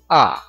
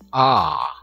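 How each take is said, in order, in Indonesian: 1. Vokalnya dibaca pendek. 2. Vokalnya dibaca panjang. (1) "Nah ini dibaca dengan short, pendek" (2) "Jadi ini dibaca panjang ya"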